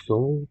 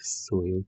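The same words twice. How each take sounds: First: "Soul" said as soul, a slip before correcting; misspoken word. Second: "Soil" said with an oi vowel, quieter fix; corrected word. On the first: Gamer fumbles the word mid-rant, saying "Soul". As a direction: blurt "Soul" with an o vowel, then fix it. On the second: Gamer corrects his slip, muttering "Soil". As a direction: settle on "Soil" after the slip, a touch softer. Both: Shown as a demonstration.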